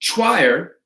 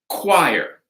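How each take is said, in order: First: The word begins with a soft ch sound. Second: The word begins with a hard K sound. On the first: The speaker calls it wrong. "we don't say choir" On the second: The speaker calls it right. "It's a hard K"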